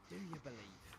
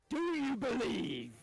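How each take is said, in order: First: It is said at a quieter level. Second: It is said at a louder level.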